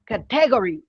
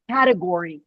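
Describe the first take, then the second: First: CATEGORY stressed on the second syllable, ca-TE-gory; misplaced stress. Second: Said in the usual way. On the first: Retold or imitated. Teacher imitating Spanish-speaking students, "category" stressed on TE. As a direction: hit the TE in "category". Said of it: "my students that are Spanish speakers". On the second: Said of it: "put the emphasis in the word".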